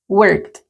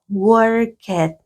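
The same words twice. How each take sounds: First: The ending is a bare t sound. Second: The ending is said as an extra syllable. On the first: The speaker calls it right. "solo el sonido de la consonante, sin la vocal" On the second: The speaker calls it wrong. "la pronunciación no puede ser worked, no"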